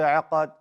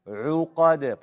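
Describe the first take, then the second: First: The first vowel is an open 'a' sound. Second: The first vowel is a rounded 'u' sound. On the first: The speaker calls it wrong. "Don't say aqad" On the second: The speaker calls it right. "Push out the dhamma on the ayn"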